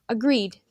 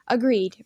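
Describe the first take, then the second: First: Light, half-amused "Agreed"; not solemnly at all. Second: Grave, falling "Agreed"; solemn agreement. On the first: Old man echoing the boys' pact, lightly amused. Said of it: "not solemnly at all". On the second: Rannifer sealing the pact with his friend, solemn. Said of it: "Rannifer said solemnly". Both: A narrator's reading.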